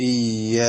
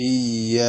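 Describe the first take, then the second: The two takes are said the same way.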